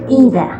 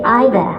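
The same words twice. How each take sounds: First: It is pronounced with an American accent. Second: It is pronounced with a British accent. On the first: "the Americans say either" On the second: "the English say either"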